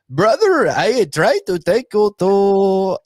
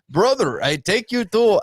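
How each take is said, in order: First: It is said in an Indian accent. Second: It is said in a Russian accent.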